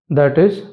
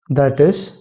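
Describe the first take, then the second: No difference in how they are said.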